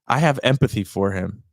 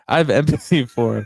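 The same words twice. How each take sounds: First: It is said in the speaker's plain accent. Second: It is said in a put-on French accent.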